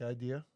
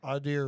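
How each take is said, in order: First: Said in the usual way. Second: Idea said as ADD-eer, with an r on the end; appalachian accent. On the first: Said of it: "It's like idea". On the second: Shown as a demonstration. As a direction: Idea with a flat a and a trailing r. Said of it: "The hillbilly".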